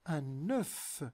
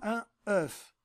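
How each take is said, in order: First: The n links into the second word. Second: The two words are said apart, without linking. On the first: The speaker calls it right. "La liaison compte dans la phonétique. On la prononce" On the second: The speaker calls it wrong. "لاحظوا أنا لا أقول un œuf"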